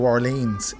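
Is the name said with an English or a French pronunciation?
English. It is said with an English pronunciation. The speaker calls it wrong. "we can't pronounce things properly. Like New Orleans"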